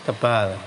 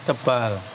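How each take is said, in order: No difference in how they are said.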